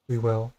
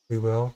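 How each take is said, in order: First: It is said in a brighter, upbeat tone. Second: It is said in a flat, unenthusiastic tone.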